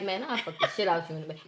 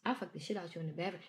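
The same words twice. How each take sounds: First: Fast, much softer seductive murmur; whisper. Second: Lame delivery. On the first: Retold or imitated. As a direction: breathe it quietly into an ear. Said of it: "whisper in my ear and be like". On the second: Shown as a demonstration. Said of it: "real lame with it".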